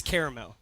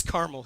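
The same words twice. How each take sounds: First: "caramel" as CARE-uh-mel, three syllables; three-beat "caramel", starting like care; CARAMEL pronunciation. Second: "Carmel" as CAR-mul, two syllables; two-beat "Carmel", starting like car; CARMEL pronunciation. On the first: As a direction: say "caramel" like the candy, with a middle vowel. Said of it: "Who says caramel?". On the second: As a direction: say "Carmel" with an AR sound and no middle vowel. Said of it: "Who says Carmel here?". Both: Shown as a demonstration.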